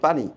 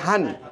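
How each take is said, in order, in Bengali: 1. শব্দটি p ধ্বনি দিয়ে শুরু হয়। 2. শব্দটি h ধ্বনি দিয়ে শুরু হয়। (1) "আমরা ঢাকার আশেপাশে যারা আছি তারা বলি পানি" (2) "নোয়াখালীতে গেলে বলে কি হানি"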